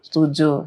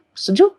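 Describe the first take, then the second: First: Said in the usual way. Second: Setuju said as a bright question, sharply rising; high rising Setuju as a question; asking setuju. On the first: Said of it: "answers own question in demo". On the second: Shown as a demonstration. Mother checks her child agrees, rising question. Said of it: "asks child's agreement in demo".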